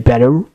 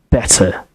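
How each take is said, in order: First: The word ends with an r-coloured vowel. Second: The word ends with a plain schwa vowel. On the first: "Americans tend to say better" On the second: "British say better"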